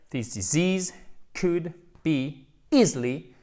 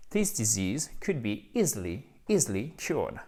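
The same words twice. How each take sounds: First: Slow model sentence, easily drawn out; slow careful repeat. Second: Said in the usual way. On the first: Shown as a demonstration. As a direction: repeat it slowly for the class. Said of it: "Je répète". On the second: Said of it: "On recommence".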